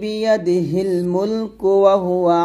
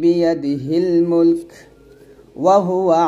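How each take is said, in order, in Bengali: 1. 'mulk' থামা ছাড়াই সোজা পরের শব্দের সাথে মিশে যায়। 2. 'mulk'-এর পরে পরের শব্দের আগে স্বর থামে।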